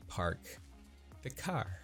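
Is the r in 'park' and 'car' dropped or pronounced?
pronounced. The r sounds are clearly pronounced. "I say park the car"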